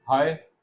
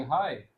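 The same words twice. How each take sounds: First: Said in the usual way. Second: "हाय" with a little wave, falling at the end. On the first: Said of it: "क्या आप ऐसे बोलोगे". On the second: Shown as a demonstration. Teacher shows how to greet a classmate, a gentle wave on "हाय". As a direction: let "हाय" glide in a natural curve. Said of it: "आवाज़ में एक लहर".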